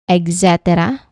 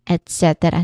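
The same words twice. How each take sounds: First: It begins with an 'eks' sound. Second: It begins with an 'et' sound. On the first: The speaker calls it wrong. "It is not et cetera" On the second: The speaker calls it right. "but it is et cetera. No X sound"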